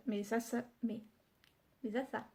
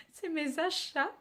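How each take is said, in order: First: Achats slipping into "asa", sh said as s; "achats" lisped with s for the sh. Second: Laughing correction, "achats" with clear sh; "achats" said right through a laugh, sh for the ch. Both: Real, not acted. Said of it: "C'est un cheveu sur la langue".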